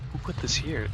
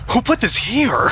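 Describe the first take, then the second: First: It is said in a casual, nonchalant way. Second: It is said in a shocked, offended way.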